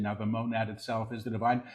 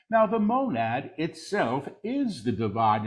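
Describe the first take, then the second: First: Quick, soft undertone; hushed preview. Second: Deliberate full-voice repeat; measured proclamation. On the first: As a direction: say it softly and rapidly before proclaiming it. Quick soft take before repeating aloud. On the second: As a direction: proclaim it clearly, word by word. Same words repeated in full voice. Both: Real, not acted.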